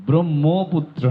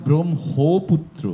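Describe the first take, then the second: No difference in how they are said.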